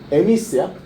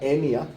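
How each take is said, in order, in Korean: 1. 이름은 s 소리로 끝나요. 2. 이름은 s 소리 없이 끝나요.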